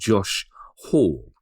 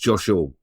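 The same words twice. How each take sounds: First: There is a pause between the two words. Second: The two words run together without a pause. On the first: "I pause between those two" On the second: "if you don't pause between Josh and Hall, it just becomes"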